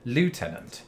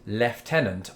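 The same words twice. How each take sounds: First: The first syllable sounds like loo. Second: The first syllable sounds like left. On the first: "I've always said" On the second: "the British way of lieutenant"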